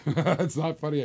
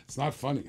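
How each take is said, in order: First: Slow, laughing through it. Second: Said in the usual way. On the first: Real, not acted. Auctioneer teased by a laughing viewer, laughing. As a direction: say it while cracking up. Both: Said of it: "Shantea Bird's laughing".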